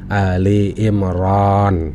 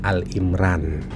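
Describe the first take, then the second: First: The first part is said as two syllables, 'Ali'. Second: The first part is said as one syllable, 'Al'. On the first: The speaker calls it right. "yang jika dibaca menjadi Ali Imran" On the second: The speaker calls it wrong. "bukan Al-Imran"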